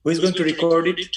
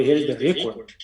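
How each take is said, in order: First: Record stressed on the second syllable, re-CORD, said slowly; verb stress, slow. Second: Record stressed on the first syllable, RE-cord; noun stress. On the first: Teacher showing where the stress falls in the verb record. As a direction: slowly lean on the end of record. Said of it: "ধাক্কা দিতে হবে". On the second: Teacher showing the stress on RE in the noun record. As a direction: punch the front of record, the noun. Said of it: "রে এর উপরে ধাক্কা দিতে হবে". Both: Shown as a demonstration.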